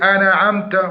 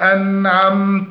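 First: An extra vowel-like bounce follows the n. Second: The n is held with no extra bounce. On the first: The speaker calls it wrong. "أنعمت قلقلة النون، فيقولون أنا عمت، وهذا خطأ" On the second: The speaker calls it right. "والصواب المحافظة على سكون النون مع عدم القلقلة"

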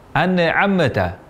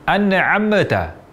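First: The m is released with a bouncing echo. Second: The same.

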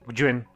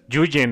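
First: It starts with a gw-like sound, as in Gwen. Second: It starts with a plain y sound. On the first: The speaker calls it right. "es como Gwen, pero con una G-Y" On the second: The speaker calls it wrong. "No es Yuyen o Yuen"

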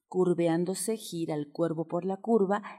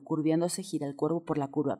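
First: The sentence is said slowly and carefully. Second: The sentence is said quickly. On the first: "lento, lento, lento" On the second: "y después puedas hacerlo mucho más rápido"

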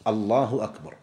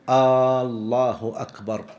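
First: No vowel in the phrase is drawn out. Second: The opening hamza vowel is drawn out. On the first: It states that God is greatest. The speaker calls it right. "أن يكون بهذا اللفظ الله أكبر" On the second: It turns the statement into a question. The speaker calls it wrong. "أن لا يمد الهمزة"

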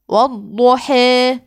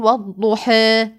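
First: The final long vowel leans strongly toward e. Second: The final long vowel falls between a and e. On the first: "الإمالة أن أقول والضحى" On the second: "التقليل لدى ورش، يقول والضحى"

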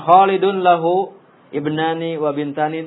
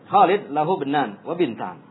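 First: The vowel endings on each word are fully pronounced. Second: The vowel endings on each word are dropped. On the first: "Malas ya mau mengucapkan" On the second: "Jadi disukun terus semuanya"

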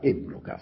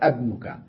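First: The word begins with an 'i' vowel. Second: The word begins with an 'a' vowel. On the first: It states a fact about the son. "لأن همزة الوصل كانت مكسورة" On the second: It asks a question about the son. "صارت أبنك"

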